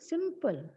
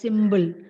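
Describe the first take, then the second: First: The middle consonant is a p sound. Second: The middle consonant is a b sound. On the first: The speaker calls it right. "So the pronunciation should be simple" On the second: The speaker calls it wrong. "But people tend to pronounce it as symbol"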